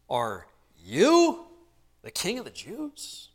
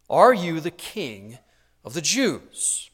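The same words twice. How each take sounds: First: "you" leaned on, falling, then "king" lifted in a rise; stress on you. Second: Said in the usual way. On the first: Shown as a demonstration. Preacher showing Pilate's emphatic question, "you" stressed. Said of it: "we might say it with this tone of voice". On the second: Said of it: "the you is emphatic there".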